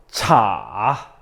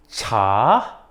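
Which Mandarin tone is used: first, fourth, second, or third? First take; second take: third; second. First: It is said with the third tone. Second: It is said with the second tone. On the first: "삼성" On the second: "이성"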